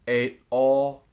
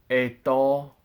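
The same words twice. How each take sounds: No difference in how they are said.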